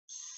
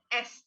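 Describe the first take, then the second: First: It is said as a bare hissing sound. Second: It is said as the letter name with a vowel. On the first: The speaker calls it right. "tapi S" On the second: The speaker calls it wrong. "bukan S"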